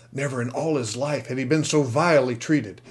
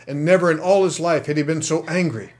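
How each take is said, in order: First: Said in the usual way. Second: Louder, higher, building to angry; building anger. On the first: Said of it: "repeated sentence, second rising". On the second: A narrator's reading. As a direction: let the anger swell through the line. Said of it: "repeated sentence, building".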